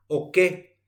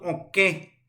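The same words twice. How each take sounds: First: "oke" with a purely oral final E; oral vowel. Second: "oke" with the final E nasalized; nasal E closing "oke"; nasal ending. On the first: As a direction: say "oke" with no nasality on the last vowel. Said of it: "tilde nasal y catu huereco totalmente". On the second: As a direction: let the last vowel of "oke" go through the nose. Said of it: "nasal al final y cambia totalmente". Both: Shown as a demonstration.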